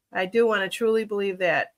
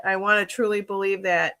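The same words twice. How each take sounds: First: "do" leaned on, falling, as a firm affirmation; sincere insistence on "do"; stress on do. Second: Said in the usual way. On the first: Real, not acted. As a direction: press the word "do" to insist you mean it.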